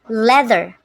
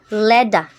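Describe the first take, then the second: First: The middle consonant is a voiced th sound. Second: The middle consonant is a d sound.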